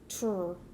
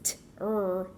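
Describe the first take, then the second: First: The two sounds are blended quickly together. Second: The two sounds are said apart, slowly. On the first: "I slur those things together and I make this sound" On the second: "we know that it's t-er"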